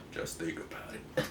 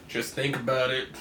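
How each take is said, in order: First: A breathy aside, barely voiced; whispered repeat. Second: Said in the usual way. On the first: Real, not acted. Telling the viewer about Stan's comic logic, in a whisper. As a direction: drop it to a whisper.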